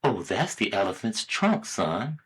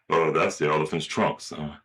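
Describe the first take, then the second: First: Lightly voiced mom answering, softer; a hint of a mother explaining to her child; casual mom reply, tailing off quieter. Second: Lightly voiced dad, lower and offhand; low casual dad reply, trailing off soft; father. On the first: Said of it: "the little boy asks his mother". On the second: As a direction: answer as a father, pitched down. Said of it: "Hey, Dad".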